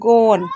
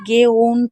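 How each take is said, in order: First: The vowels merge into one 'aw' sound. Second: The vowels are split into two separate sounds. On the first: The speaker calls it right. "ए यू को ओ पढ़ते हैं तो ये गॉन कहलाएगा" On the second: The speaker calls it wrong. "इसको आपको ऐसे नहीं दिखना है कि गे ओन पढ़ेंगे, नहीं"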